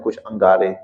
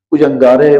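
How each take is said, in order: First: Said in the usual way. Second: کچھ انگارے repeated louder with rising end; emphatic repeat. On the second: Shown as a demonstration. Scholar stressing the embers Moses hoped for, emphatic. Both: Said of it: "کچھ انگارے repeated".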